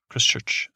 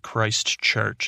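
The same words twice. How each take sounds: First: The word is said quickly and run together. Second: The word is said slowly and fully. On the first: This is how a local said it. "He said it fast" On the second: This is how the speaker says it. "Not Christchurch, as I would say it"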